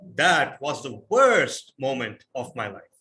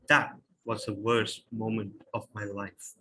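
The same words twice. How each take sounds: First: It is said loudly, amplified like a speech. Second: It is said softly and intimately, conversationally.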